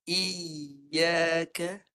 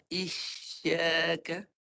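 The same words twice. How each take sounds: First: "Iyyaka" with a doubled y sound; "Iyyaka" with a long unbroken yy. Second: "Isyaka" very slow, sh from mid-tongue; "Isyaka" stretched with a rising end; with shin. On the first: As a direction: glide "Iyyaka" through the yy without stopping. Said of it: "sekarang cuba tukar dengan ya pula". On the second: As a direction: draw out "Isyaka" with a clear shin. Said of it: "Bukan ya". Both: Shown as a demonstration.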